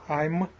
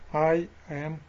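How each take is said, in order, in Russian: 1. Два слова сливаются в одно. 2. Два слова произносятся отдельно. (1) "Чем больше сливаете, тем вас они легче понимают" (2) "Поэтому неправильно будет"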